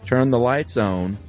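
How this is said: It is said with a Southern Carolina accent.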